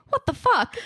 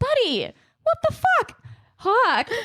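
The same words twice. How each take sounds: First: Lightly voiced little boy blurting it out high; imitating toddler. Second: High mock-exasperated scold on fuck; exasperated mom. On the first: Mom quoting her small son's swear, lightly voiced and higher. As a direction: mimic the kid's cheerful swear, what said brightly. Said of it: "'cause he's just saying". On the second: Mom telling her son Hawk off, high mock exasperation. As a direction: playfully scold the toddler in disbelief. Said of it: "And I'm like".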